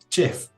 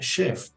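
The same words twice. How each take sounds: First: It is said with a Spanish pronunciation. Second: It is said with a French pronunciation. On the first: "Para nosotros en español es chef" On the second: "siendo una palabra francesa se pronuncia chef"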